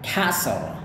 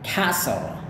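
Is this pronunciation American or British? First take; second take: American; American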